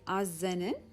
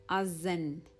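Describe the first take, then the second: First: The N is said twice, adding a syllable. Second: The N is said once and held longer. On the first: The speaker calls it wrong. "you don't say azenin" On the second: The speaker calls it right. "you're just stressing on the N instead of repeating it two times"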